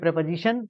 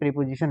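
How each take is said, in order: First: It starts with a short 'prep' sound. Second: It starts with a long 'pree' sound. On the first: The speaker has studied English. The speaker calls it right. "तो जान जाएंगे English पढ़े हैं" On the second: The speaker has not studied the topic. The speaker calls it wrong. "सब लोग जान जाएंगे प्रीपोजिशन नहीं पढ़े"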